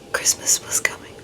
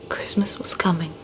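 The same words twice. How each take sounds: First: It is said in a whisper. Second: It is said in a soft, voiced tone.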